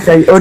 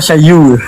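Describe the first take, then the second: First: The word ends with an n sound. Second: The word ends on a vowel without n. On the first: "Yang lucunya Syai'un" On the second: "dia baca Syayu"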